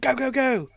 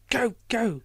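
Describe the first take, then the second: First: It is shouted loudly, like starting a race. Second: It is said calmly, without shouting. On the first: It sounds like cheering on the start of a race. The speaker calls it wrong. "she doesn't shout it like a race" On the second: Someone is being urgently sent away. The speaker calls it right. "I should do that again"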